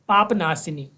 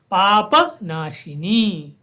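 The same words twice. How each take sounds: First: पाप with the final a dropped; Hindi pronunciation. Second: Slow, पापनाशिनी with the second प given a full a; full Sanskrit pronunciation. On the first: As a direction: say पाप नाशिनी short, Hindi way. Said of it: "हिंदी में देखेंगे". (हिंदी उच्चारण) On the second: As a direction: stretch पाप so the final प sounds whole. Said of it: "प को पूरा पढ़ेंगे". (धीरे, प पूरा बोलें) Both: Shown as a demonstration.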